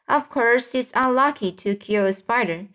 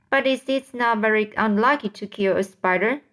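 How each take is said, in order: First: Mildly emphatic answer, falling at "spider"; understated shout. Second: Mildly puzzled question, lifting at "spider"; inquiring. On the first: Centipede answers James's question, mildly shouted. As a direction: insist on it, with only a touch of a shout. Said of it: "shouted the centipede". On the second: James asks the others about bad luck, inquiring. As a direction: ask it of the group, "spider" left open. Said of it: "James inquired". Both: A narrator's reading.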